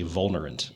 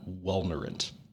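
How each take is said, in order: First: The word begins with a V sound. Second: The word begins with a W sound. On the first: The speaker calls it right. "glad to hear you say vulnerant" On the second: The speaker calls it wrong. "and not vulnerant"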